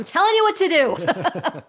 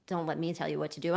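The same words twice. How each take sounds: First: Loud, high, emphatic command; playful bossy shout. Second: Said in the usual way. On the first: Real, not acted. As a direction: belt it out as a joking order. Playfully reverses her own disclaimer.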